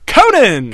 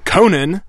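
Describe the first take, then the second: First: The name is said excitedly, like an exclamation. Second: The name is said flatly, without excitement.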